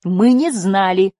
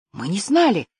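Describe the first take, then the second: First: Slow, louder, higher-pitched repetition; emphatic echo. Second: Higher, hesitant, stunned reply; stunned admission. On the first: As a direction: insist on it, stretching each word. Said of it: "повторила Жасмин вслед за Лифом". (твёрдое, растянутое повторение) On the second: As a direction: admit it in taken-aback disbelief. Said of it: "выдохнул Лиф". (растерянно, поражённо) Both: A narrator's reading.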